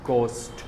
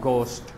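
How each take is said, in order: No difference in how they are said.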